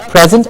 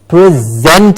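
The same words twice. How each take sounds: First: The stress is on the first syllable. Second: The stress is on the second syllable. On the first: It means a gift or being there. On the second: It means to give something.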